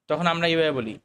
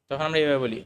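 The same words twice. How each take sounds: Both takes have the same delivery.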